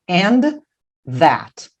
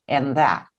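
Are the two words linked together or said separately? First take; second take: separated; linked. First: Both final and initial sounds are said separately. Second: The two words run together into one sound. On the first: The speaker calls it wrong. "Eu não vou fazer and that" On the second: The speaker calls it right. "Juntos fica"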